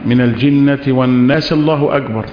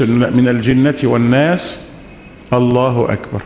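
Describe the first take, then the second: First: The words run on with no pause before 'Allahu akbar'. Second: There is a short pause before 'Allahu akbar'. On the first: The recitation runs straight into the takbir for bowing. The speaker calls it wrong. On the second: The recitation is separated from the takbir for bowing. The speaker calls it right.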